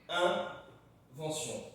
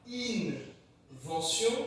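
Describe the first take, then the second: First: The first vowel is a nasal 'un' sound. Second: The first vowel is an oral i plus n. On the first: The speaker calls it right. "tu vas le prononcer vraiment comme le chiffre un" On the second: The speaker calls it wrong. "pas invention"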